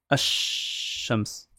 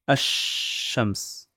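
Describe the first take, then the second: No difference in how they are said.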